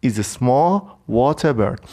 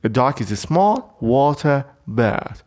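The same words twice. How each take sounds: First: Slow, small stressed with a falling tune; teacher repeats the definition. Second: Very slow, stress on small; slow dictation voice; slow definition read. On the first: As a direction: repeat the phrase for learners. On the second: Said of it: "ببینید توی جمله". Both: Shown as a demonstration.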